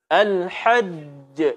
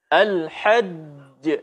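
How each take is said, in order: First: The final j is clear with a bounce. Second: The final j is clear with a bounce.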